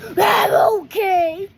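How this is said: It is said in an angry tone.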